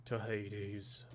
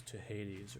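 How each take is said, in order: First: Badly faked Jason Statham British accent; terrible Statham accent. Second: Said in the usual way. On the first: Imagining Jason Statham quoting Odysseus, in a terrible accent. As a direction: lightly attempt a bad British accent as Statham. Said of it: "that's a terrible accent". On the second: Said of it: "he says, "To Hades".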